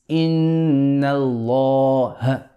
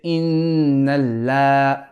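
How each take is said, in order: First: The l in Allah is heavy, with a full mouth. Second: The l in Allah is light, with a flat mouth. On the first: The speaker calls it right. "It's inna Allah" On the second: The speaker calls it wrong. "We do not say inna la"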